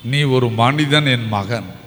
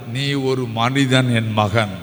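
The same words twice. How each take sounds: First: Slow, low, gentle repeat; tender Jesus again. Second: Slow, lowered, gentle voice; tender Jesus. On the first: Preacher repeating Jesus's words to the outcast, slow and tender. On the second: Preacher voicing Jesus to the outcast, slow and tender. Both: Acted. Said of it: "என் ஆண்டவருக்கு".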